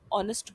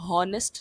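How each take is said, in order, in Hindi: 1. यह शब्द सीधे एक स्वर से शुरू होता है। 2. यह शब्द h की ध्वनि से शुरू होता है। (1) "आप ऑनेस्ट बोलेंगे" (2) "आप हॉनेस्ट नहीं बोलेंगे"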